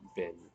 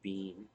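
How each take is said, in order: First: The word has the short vowel of sit. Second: The word has the long vowel of see. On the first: The speaker calls it right. "with the vowel in sit" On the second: The speaker calls it wrong. "In the vowel in C. No, I don't say bean"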